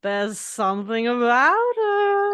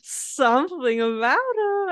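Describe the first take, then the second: First: Slow, drawn-out tipsy impression of Lisa; mimicking the tipsy host, slow and louder; imitating Lisa. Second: Slow, higher, drawn-out tipsy Lisa; echoing the host's tipsy line, slow and higher; imitating Lisa again. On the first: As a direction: drag the words out like she's had a few. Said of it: "She goes". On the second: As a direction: stretch it out, dreamy and a bit drunk.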